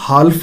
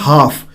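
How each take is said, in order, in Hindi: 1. L की ध्वनि बोली जाती है। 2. L की ध्वनि मौन है। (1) "ਇਸਨੂੰ ਤੁਸੀਂ ਹਾਲਫ ਨਹੀਂ ਅ, ਜੋ ਹੈ ਬੋਲਣਾ" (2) "ਜੋ ਐਲ ਹੈ ਉਹ ਜੋ ਹੈ ਅ, ਬੋਲਿਆ ਨਹੀਂ ਜਾਂਦਾ"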